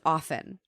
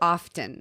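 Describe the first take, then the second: First: The t in the middle is silent. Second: The t in the middle is pronounced. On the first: The speaker calls it right. "taking the T out of the word off" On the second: The speaker calls it wrong. "for often"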